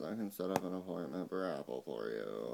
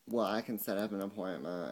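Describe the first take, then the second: First: Lower, softer mock impression of the Apple agent; a mocking take on the phone rep; imitating the agent. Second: Said in the usual way. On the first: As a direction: mimic his stiff phone manner. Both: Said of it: "And he talks like this".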